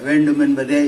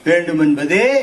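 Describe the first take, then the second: First: The final vowel is said plainly, without emphasis. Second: The final vowel is stressed and lengthened. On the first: The speaker calls it wrong. "இல்ல" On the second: The speaker calls it right. "அந்த ஏகாரத்தை நீங்கள் விடக்கூடாது"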